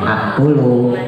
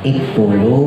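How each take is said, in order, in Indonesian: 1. Kata ini diawali dengan vokal a. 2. Kata ini diawali dengan vokal i. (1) "bukan aktulu" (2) "bukan iktulu"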